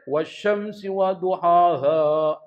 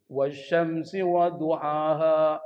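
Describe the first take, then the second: First: Slow chant, DUHAHA from the wrong place; bacaan keliru. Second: Slow chant, DUHAHA with h from the throat; makhraj tenggorokan. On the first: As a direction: recite "duhaha" with a misplaced h. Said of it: "Salah, Pak". (lantunan "duhaha" dengan makhraj ha yang salah) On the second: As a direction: recite "duhaha" correctly from the throat. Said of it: "Di kerongkongan". (lantunan "duhaha", ha keluar dari kerongkongan) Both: Shown as a demonstration.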